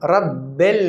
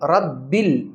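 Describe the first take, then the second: First: The second vowel sounds like 'e'. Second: The second vowel sounds like 'i'. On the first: The speaker calls it wrong. "रब्बिल नहीं" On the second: The speaker calls it right. "तो ये है मजहूल पढ़ना"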